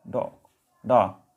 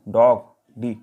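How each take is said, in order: First: डॉग said slowly, then डा drawn out long and low to show the open vowel; sounding out the vowel. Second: Said in the usual way. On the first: Shown as a demonstration. Teacher sounding out डा slowly for the students. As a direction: stretch डा so the class hears the sound. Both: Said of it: "डा समझ रहे हो आप".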